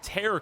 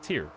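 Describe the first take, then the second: First: The word rhymes with fair. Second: The word rhymes with fear. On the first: It means a rip or rift. "Frozen Tear could work, though, like a rift" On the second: It means a teardrop. "It's gotta be Tear"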